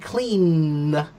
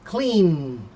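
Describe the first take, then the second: First: The final n is drawn out and exaggerated. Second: The final n is cut off short. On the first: This is a practice form to train the mouth. "you want to try to overpronounce that ending" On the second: This is how it is eventually said naturally. "You'll just cut off the n"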